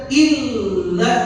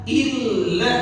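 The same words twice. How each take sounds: No difference in how they are said.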